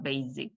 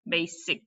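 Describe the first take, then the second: First: The middle consonant is a buzzing z sound. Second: The middle consonant is a hissing s sound. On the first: The speaker calls it wrong. "It's not basic" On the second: The speaker calls it right. "the correct answer is S"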